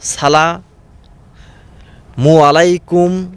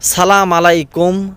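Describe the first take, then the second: First: The first word is shortened to salamu. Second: The first word is shortened to salam. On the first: "কত রকমের উচ্চারণ" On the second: "আমরা এর উচ্চারণ ঠিকভাবে করতে পারি না"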